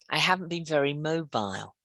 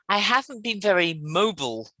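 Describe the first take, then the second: First: Mobile is said with a British accent. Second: Mobile is said with an American accent.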